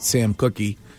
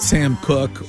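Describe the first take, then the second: First: The surname is said with two syllables. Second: The surname is said with one syllable. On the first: The speaker calls it wrong. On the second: The speaker calls it right.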